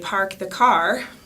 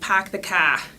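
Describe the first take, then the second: First: It is spoken in a Utah accent. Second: It is spoken in a Boston or New York accent. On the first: "in Utah, where we would say" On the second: "in Bostonian English or New York"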